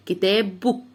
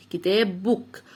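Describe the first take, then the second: No difference in how they are said.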